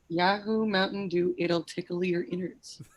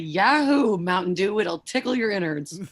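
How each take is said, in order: First: It is read in a plain, everyday voice. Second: It is read in a put-on teacher voice.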